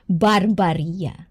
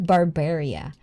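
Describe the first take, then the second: First: Slow "Barbaria" with an open "bar" middle, bar-BAR-ia; accented Barbaria. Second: "Barbaria" with a "bear" middle, bar-BEAR-ia; rejected Barbaria pronunciation. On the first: Host showing the preferred name, slow "Barbaria" as bar-BAR-ia. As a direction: draw out "Barbaria" with broad ah vowels and a tapped r. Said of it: "I'm gonna do that accent". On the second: Host showing how not to say the name, "Barbaria" as bar-BEAR-ia. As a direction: say "Barbaria" with an English "air" vowel in the second syllable. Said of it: "Not Barbaria". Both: Shown as a demonstration.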